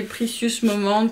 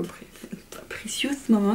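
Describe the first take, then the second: First: Said in the usual way. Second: "Precious Moment" whispered, trying an English accent; hesitant whispered retry of "Precious Moment" in English; whispered English accent attempt. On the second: Shown as a demonstration. ("Precious Moment" chuchoté avec un accent anglais hésitant) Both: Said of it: "mon accent anglais".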